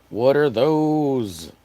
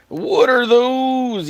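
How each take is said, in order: First: Very slow "What are those?" at normal pitch; drawn-out meme line. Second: High, loud, very slow "What are those?"; drawn-out meme yell. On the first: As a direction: stretch "What are those?" slowly, no yelling. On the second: Meme line said twice. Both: Retold or imitated.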